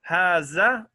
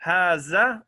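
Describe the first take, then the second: First: The middle consonant is a buzzing 'z' sound. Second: The same.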